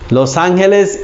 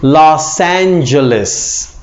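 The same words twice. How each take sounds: First: It is pronounced with Spanish-style sounds. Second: It is pronounced with English sounds. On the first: The speaker calls it wrong. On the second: The speaker calls it right.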